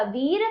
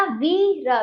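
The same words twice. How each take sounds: First: वीर as one whole word with long ई; joined up. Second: वीर split as a long वी, then र; broken into letters. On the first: Teacher reads the word whole for pupils, joined up. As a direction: blend वीर into a single syllable. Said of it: "जोड़कर भी पढ़ा". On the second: Teacher spells the word out for pupils, broken up. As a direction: read वीर in separate pieces. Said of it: "तोड़कर भी पढ़ा". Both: Shown as a demonstration.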